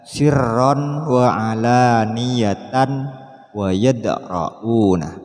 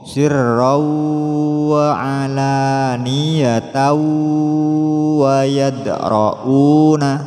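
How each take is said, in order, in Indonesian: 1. Tanwin dibaca sebagai bunyi n yang jelas. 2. Tanwin menyatu menjadi bunyi w yang disertai dengung. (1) "Tidak boleh dibaca" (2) "disertai dengung"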